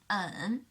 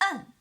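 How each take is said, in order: First: The pitch dips low and then rises. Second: The pitch stays high and level. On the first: "The third tone" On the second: "The first tone"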